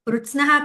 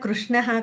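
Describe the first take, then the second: First: The middle cluster sounds like 'tsn'. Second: The middle cluster sounds like 'shn'. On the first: The speaker calls it wrong. "కృత్స్నః కాదు కదా" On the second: The speaker calls it right. "కృష్ణః కదా"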